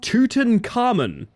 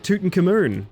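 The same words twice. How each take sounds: First: The name is pronounced in the standard way. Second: The name is pronounced in a garbled way. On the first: This is the name that was intended. The speaker calls it right. "is what they were going for there" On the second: A tourist is mangling the name. The speaker calls it wrong. "What's the most fucked up pronunciation you guys have ever heard?"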